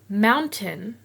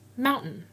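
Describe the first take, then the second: First: The middle T is a full T sound. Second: The middle T is a glottal stop catch.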